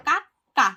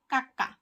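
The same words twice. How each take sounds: First: কাক্কা said loud with a held double k, kak-ka; teaching demo. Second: Said in the usual way. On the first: Shown as a demonstration. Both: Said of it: "এখানে কয় ক উচ্চারণ করলেও এটা ভুল হবে না".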